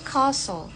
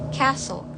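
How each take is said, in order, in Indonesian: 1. Ini diucapkan dengan aksen Inggris. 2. Ini diucapkan dengan aksen Amerika. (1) "Britishnya kita baca castle" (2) "Sedangkan untuk American itu castle"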